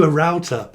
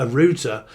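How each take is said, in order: First: "router" rhyming with doubter; "router" as ROW-ter. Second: "router" rhyming with shooter; "router" as ROO-ter. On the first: Correcting which router is needed, "router" said as ROW-ter. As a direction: say "router" with an ow sound. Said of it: "Oh, a router". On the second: Playing on the word, "router" said as ROO-ter. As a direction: say "router" with an oo sound. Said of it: "Yes, I'd route you". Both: Shown as a demonstration.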